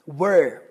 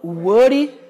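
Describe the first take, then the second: First: The r is pronounced like an English r. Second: The r is pronounced like a Portuguese r. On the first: The speaker calls it right. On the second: The speaker calls it wrong.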